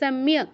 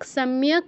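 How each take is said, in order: First: The word ends on a bare k consonant. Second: The word ends with a vowel after k. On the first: The speaker calls it right. "কয়ের পূর্ণ উচ্চারণ হবে না" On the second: The speaker calls it wrong. "নয়"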